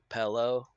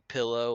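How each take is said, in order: First: It is said in a regional Southern accent. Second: It is said in a neutral accent.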